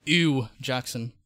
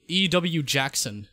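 First: "Ew Jackson" with Ew as a single word, like disgust; slow "Ew Jackson", Ew said like eww; initials as one word. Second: "E W Jackson" with E and W as separate letters; slow "E W Jackson", initials said one by one; letter-by-letter name. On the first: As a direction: run the initials together in "Ew Jackson". Alternative reading of the initials. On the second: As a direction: spell out the initials in "E W Jackson", slowly. Reads name two ways. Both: Shown as a demonstration.

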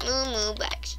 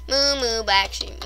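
First: Soft, half-whispered echo; whispered repeat. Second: Said in the usual way. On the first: Pretend. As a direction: repeat it softly, almost whispering.

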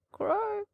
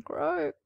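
First: Much higher second raven call; higher raven croak. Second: High croaking raven call. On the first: Raven on the fence croaking again, higher still. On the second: Raven on the fence crying croak, high. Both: Acted.

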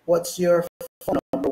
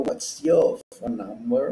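First: "your" with the R sounded; higher question with a clear R in "your"; American "your", rhotic; American pronunciation. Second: "your" with the R dropped, like "yaw"; non-rhotic "your", question rising at the end; British-style "your", silent R; British pronunciation. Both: Shown as a demonstration. Contrasts American and British pronunciation.

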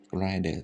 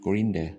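First: "grinder" with an "eye" vowel; long-i pronunciation. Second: "grinder" with short i, like "grin-der"; short-i pronunciation. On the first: Teacher correcting his own reading, "grinder" as "grine-der". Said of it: "ต้องอ่านว่า grind". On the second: Teacher trying out a reading of the word, "grinder" as "grin-der". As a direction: say "grinder" with an ee-like first vowel. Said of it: "บางครั้งอ่านว่าอิ". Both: Shown as a demonstration.

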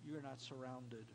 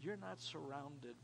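The two takes are said the same way.

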